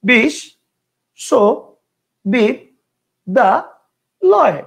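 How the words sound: The word is broken into five separate chunks. "কয়টা হইলো? পাঁচটা।"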